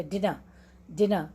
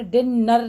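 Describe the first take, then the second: First: डिनर lower, light single न, weak ending; run together. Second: डिनर split as डिन-नर with a doubled न; overdone two-beat डिनर with long न; two separate syllables. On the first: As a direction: say डिनर as one unit, softly falling. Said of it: "इसको हम कभी भी दो syllable". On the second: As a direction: punch out both halves of डिनर, नर fully voiced. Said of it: "डिनर नहीं पढ़ते". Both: Shown as a demonstration.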